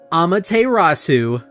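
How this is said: The name is said with an English accent.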